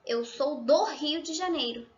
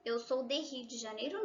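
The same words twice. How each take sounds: First: "do" acentuado, final que cae; correct form. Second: "de Rio" dicho suave, con subida dudosa; wrong form. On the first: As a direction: forma correcta con "do" marcado. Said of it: "tá?". ("Eu sou do Rio de Janeiro" firme y correcto) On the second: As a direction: forma incorrecta, más baja y vacilante. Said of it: "não". ("Eu sou de Rio de Janeiro" como error, más suave) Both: Shown as a demonstration.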